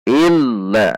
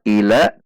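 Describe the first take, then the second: First: The l sound is doubled and pressed. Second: The l sound is single and light. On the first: The speaker calls it right. "Il ada tekanan" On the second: The speaker calls it wrong. "maka lam tidak bertasydid"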